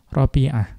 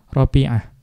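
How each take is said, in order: The two takes are said the same way.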